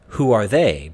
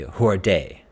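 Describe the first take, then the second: First: The word they starts with a th sound. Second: The word they starts with a d sound. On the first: "instead of who are they" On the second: "We do hear people say they as day"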